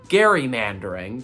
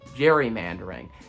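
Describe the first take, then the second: First: It begins with a hard g sound. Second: It begins with a soft j sound. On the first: This matches the name it comes from. The speaker calls it right. "it's named after former Vice President Elbridge Gerry... So it's actually gerrymandering" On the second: This is how almost everyone says it. The speaker calls it wrong. "heard it pronounced the way that I just said it, you've actually heard it pronounced wrong"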